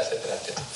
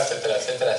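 First: Trailing off into a whisper. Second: Said in the usual way. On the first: Real, not acted. Speaker trails off his list of examples in a whisper. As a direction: let the list fade to a breathless whisper.

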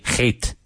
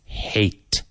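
First: "hate" with a harsh, throaty H; "hate" opening like a Spanish jota; harsh H, mistaken. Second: "Hate" with a soft breathy H; "Hate" opening on plain soft air, no scrape; softened, breathed H. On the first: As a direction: scrape the H of "hate" as a learner's error. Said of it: "you don't want to say". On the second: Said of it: "So soften it. Breathe". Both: Shown as a demonstration.

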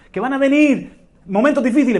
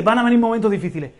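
First: Higher, louder first call; emphatic warning. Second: Quick plain echo. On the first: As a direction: proclaim it up high. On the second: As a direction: rattle off the echo. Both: Real, not acted. Preacher repeats warning phrase.

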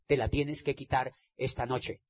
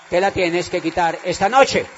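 First: Soft, low opening of a building refrain; quiet exhortation. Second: Louder, commanding end of the refrain; loud exhortation. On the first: Preaching to the audience, starting quietly. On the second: Preaching to the audience, building to a loud command. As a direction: drive it home, louder. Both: Acted.

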